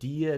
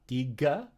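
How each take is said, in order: First: The middle consonant is a y sound. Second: The middle consonant is a hard g sound. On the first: The speaker calls it right. "Notice that I said dia" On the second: The speaker calls it wrong. "not diga"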